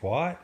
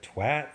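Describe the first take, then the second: First: It is said with an American-style vowel. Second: It is said with a British-style vowel. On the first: The speaker calls it wrong. "when you say twat instead of" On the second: The speaker calls it right. "instead of twat"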